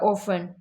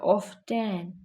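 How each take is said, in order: First: No t sound is heard in the middle. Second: A light t sound is heard in the middle. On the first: "एक तरीका ऑफन। ऑफन ही बोलते सारे" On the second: "टी का उच्चारण हल्का"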